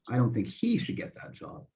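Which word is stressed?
he. The word 'he' carries the main stress. Someone else should get the job. "I really mean that somebody else, yeah, not him"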